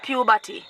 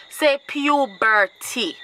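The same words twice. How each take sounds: First: PUBERTY with 'batty' for the last part, pyu-BAH-tee; mispronounced puberty. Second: PUBERTY very slow, syllable by syllable: pyu-BER-tee; corrected puberty. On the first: Showing a parent the mistake, puberty said wrongly as pyu-batty. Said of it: "not puberty". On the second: Teaching a parent the word, puberty drawn out as pyu-BER-tee. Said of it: "Say puberty, not puberty". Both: Acted.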